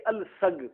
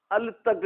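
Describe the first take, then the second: First: अल सग said with the sa sound, shown as the correct reading; right pronunciation. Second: अल तग said with a plain T sound, shown as the wrong reading; wrong pronunciation. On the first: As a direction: say अल सग with a clear S for the three-dotted letter. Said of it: "सा के साथ पढ़ना है". (अल सग को सही उच्चारण, सा की आवाज़ से) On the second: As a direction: say अल तग with a T where the Arabic sound belongs. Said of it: "अल तग नहीं पढ़ना". (अल तग को गलत उच्चारण, त की आवाज़ से) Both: Shown as a demonstration.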